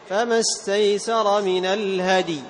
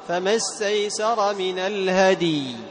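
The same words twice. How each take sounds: First: The final vowel of the last word is kept short. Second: The final vowel of the last word is drawn out long. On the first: The speaker calls it right. "هكذا بدون مد" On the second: The speaker calls it wrong. "ما يقال فما استيسر من الهدي، خطأ"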